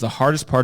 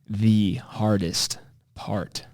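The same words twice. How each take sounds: First: The word hardest gets ordinary, unmarked stress. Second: The word hardest is heavily and dramatically stressed.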